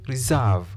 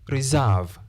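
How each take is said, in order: The two takes are said the same way.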